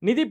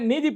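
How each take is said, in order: First: The first vowel is short. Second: The first vowel is long. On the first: The speaker calls it right. "நிதி பற்றாக்குறைய" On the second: The speaker calls it wrong. "நீதி பற்றாக்குறைன்னு சொல்லி படிக்கிறாரு"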